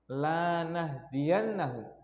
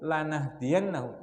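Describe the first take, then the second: First: The first vowel is held long. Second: The first vowel is held short. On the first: We will never give them guidance. "antum baca dua harokat" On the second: We will surely give it to them. "Kalau antum baca pendek, lanya pendek, satu harokat"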